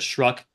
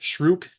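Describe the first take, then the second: First: The vowel sounds like the one in cup. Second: The vowel sounds like the one in book. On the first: The speaker calls it wrong. "as opposed to Shruck" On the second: The speaker calls it right. "his name is I pronounce it Shrook"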